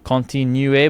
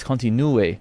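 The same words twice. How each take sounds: First: Continuer with an Ontario French ending; the wrong take a coach corrects, Canadian French; wrong French vowel. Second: Continue with the Parisian vowel; the corrected take, France French accent. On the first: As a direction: say continuer with an anglicised Quebec vowel. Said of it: "no, no, you said continuer". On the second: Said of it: "but it's continue". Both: Retold or imitated.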